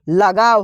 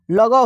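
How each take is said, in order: First: लगाव as "la-gaa-v", the correct form; correct pronunciation. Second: लगाव misread as "lo-go"; incorrect pronunciation. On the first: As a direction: say लगाव with an open long aa, "la-gaav". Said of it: "लगाव शब्द सही होता है". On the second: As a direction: say लगाव with short rounded vowels, like "logo". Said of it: "गलत हो जाएगा". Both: Shown as a demonstration.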